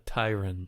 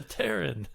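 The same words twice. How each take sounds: First: Tyran with a long I, like "tie"; the books' pronunciation. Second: Terran said with a flat A; flat-A pronunciation. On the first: Quoting how the books say it, long-I pronunciation. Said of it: "The books, they say". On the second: Player claims to be a Terran, flat-A pronunciation. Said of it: "the flat A". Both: Shown as a demonstration.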